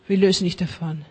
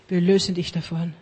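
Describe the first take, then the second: No difference in how they are said.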